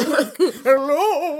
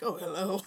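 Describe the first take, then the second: First: High, loud spooky ghost hello. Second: Ghost voice. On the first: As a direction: moan it like a laughing ghost. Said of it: "in a ghost voice". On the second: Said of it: "I don't know why I said that in a ghost voice". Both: Retold or imitated.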